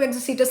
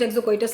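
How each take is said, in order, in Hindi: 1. बीच का शब्दांश 'see' की तरह बोला जाता है। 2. बीच का शब्दांश 'koy' की तरह बोला जाता है। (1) "कुछ लोग एक्सोसीटस लेते हैं" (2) "कुछ एक्सोकोइटस लेते हैं"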